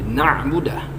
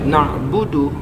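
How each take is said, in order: First: The word ends with an 'ah' sound. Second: The word ends with a short 'u' vowel. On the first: The speaker calls it wrong. "lalu kemudian dia rubah menjadi na'budah, maka kesalahan ini adalah kesalahan besar" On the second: The speaker calls it right. "Misalnya dia baca eh, na'budu"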